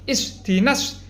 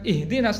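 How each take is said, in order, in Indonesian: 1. Konsonan kedua adalah bunyi S. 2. Konsonan kedua adalah bunyi H. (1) "tapi isdinas" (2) "bukan ihdinas"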